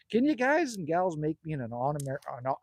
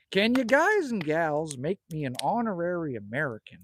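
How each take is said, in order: First: Tripping over the words, restarting; stuttering. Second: Said in the usual way. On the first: Real, not acted. To the chat, stuttering as he tries to ask. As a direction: stumble and restart mid-sentence. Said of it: "you're stuttering". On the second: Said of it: "be a man and spit it out".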